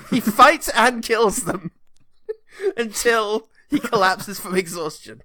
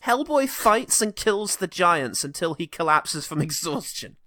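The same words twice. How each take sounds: First: Slow, laughing, mock-solemn emphasis; laughing re-read. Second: Said in the usual way. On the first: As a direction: savour each word while cracking up. Re-reading the quote for laughs. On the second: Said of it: "I'm gonna quote Wikipedia on this".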